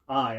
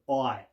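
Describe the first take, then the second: First: The vowel is in a non-Cockney accent. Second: The vowel is in a Cockney accent. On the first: "instead of I" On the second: "I'm going I"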